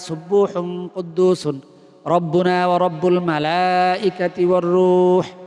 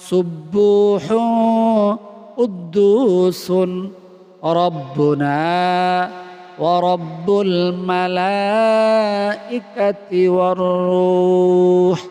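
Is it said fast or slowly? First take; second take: fast; slowly. First: It is recited fast. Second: It is recited slowly.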